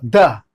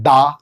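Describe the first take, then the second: First: द clipped short, no long vowel; correct short "the". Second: दा with a long open aa, the wrong way; wrong long "daa". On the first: Teacher showing students the right way. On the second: Teacher showing students the wrong way. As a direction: stretch दा to show the mistake. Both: Shown as a demonstration. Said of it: "दा नहीं कहना है".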